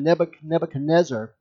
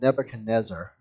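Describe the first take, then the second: First: The name is said with extra added syllables. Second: The name is said with its usual syllables. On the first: The speaker calls it wrong. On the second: The speaker calls it right.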